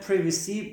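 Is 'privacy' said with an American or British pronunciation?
British. It is said with a British pronunciation. "Privacy, British"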